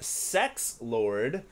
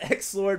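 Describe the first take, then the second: First: The name begins with an S sound. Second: The name begins with a vowel sound. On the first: This is how the player himself says it. "his name was pronounced Sex Lord" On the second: This is the usual reading of the spelling. "I'm just gonna stick with X Lord"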